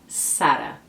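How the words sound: It starts with a hissing S sound. This is how Spanish speakers say it. "no espanhol tem um som muito mais próximo ao S"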